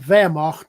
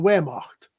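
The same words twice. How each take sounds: First: The word begins with a V sound. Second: The word begins with a W sound. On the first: The speaker calls it right. "doesn't have a W" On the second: The speaker calls it wrong. "not the Wehrmacht"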